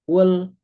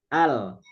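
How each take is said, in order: First: The syllable begins with a u vowel. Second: The syllable begins with an a vowel. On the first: The speaker calls it wrong. "nggak mungkin ul atau il" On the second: The speaker calls it right. "alifnya dibacanya a"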